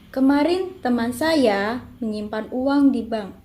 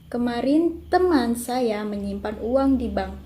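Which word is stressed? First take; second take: saya; teman. First: The stress falls on saya. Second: The stress falls on teman. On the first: "Yang ketiga mendapatkan tekanan pada saya" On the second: "kalimat kedua mendapatkan tekanan pada teman"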